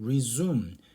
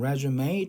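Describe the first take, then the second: First: The word ends without a sounded final 'e'. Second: The word ends with a strongly sounded 'e'. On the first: To start again something that was stopped. "그냥 우리가 아무런 표시 없이 쓰면 resume" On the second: A document listing one's work history. "요거를 에로 강하게 발음하는 프랑스어다"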